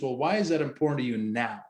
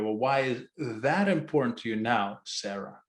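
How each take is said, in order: First: The stress is on "now". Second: The stress is on "that".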